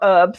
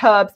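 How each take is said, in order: First: The word is said the American way. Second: The word is said the British way. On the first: This is how the speaker does not say it. "not herbs" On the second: This is how the speaker normally says it. "I use the word herbs, So that's the British in me"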